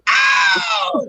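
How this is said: The scream is thin and high-pitched. "this high pitch, the higher pitched one that I do"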